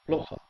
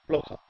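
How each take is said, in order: Both takes have the same delivery.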